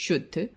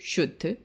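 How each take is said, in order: Both takes have the same delivery.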